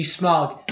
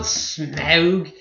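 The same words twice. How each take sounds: First: "Smaug" said with the vowel as in "smog"; correct pronunciation. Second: "Smaug" said with the "ow" of "cow", as rejected; wrong pronunciation. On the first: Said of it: "It is incorrect". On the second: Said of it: "Not Smaug". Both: Shown as a demonstration.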